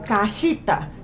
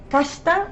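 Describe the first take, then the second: First: The i after sh is clearly sounded. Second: The i after sh is nearly silent. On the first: The speaker calls it wrong. "no se pronuncia keshita o kashita" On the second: The speaker calls it right. "el i casi no se pronuncia"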